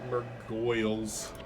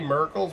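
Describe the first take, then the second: First: The second syllable is 'goyle' with an oy vowel. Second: The second syllable is a short 'gle'. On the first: The speaker calls it right. "but Murgoyles" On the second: The speaker calls it wrong. "I say Murgles, My poor pronunciation"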